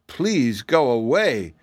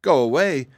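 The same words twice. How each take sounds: First: Slow, drawn-out plea; imploring, lingering on the words; begging. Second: Higher, quicker incredulous echo; taken-aback girl repeating what was said; echoing question. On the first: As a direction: beg them to leave. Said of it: "begged one". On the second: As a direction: throw the words back in disbelief. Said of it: "echoed Betsy". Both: A narrator's reading.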